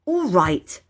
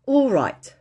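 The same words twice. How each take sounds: First: Curt, impatient concession. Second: Higher, brisk agreement; agreeing. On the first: Peter giving in to Phyllis, impatient. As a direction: give in with impatience. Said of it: "said Peter impatiently". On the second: Peter agreeing to unsay everything, conceding. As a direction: accept the truce, pitched up. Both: A narrator's reading.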